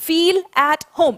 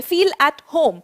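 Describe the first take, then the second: First: Slow repeat-after-me. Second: Said in the usual way. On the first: Shown as a demonstration. Teacher leading her class in slow choral repetition. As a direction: feel at home drawn out slowly word by word. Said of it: "मेरे साथ-साथ pronounce करेंगे". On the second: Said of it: "pronounce करेंगे".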